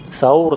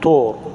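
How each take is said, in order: First: The word begins with a soft 'th' sound. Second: The word begins with a hard 't' sound. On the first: This is the standard classical form. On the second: This is the everyday colloquial form.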